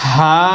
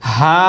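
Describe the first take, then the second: Both takes have the same delivery.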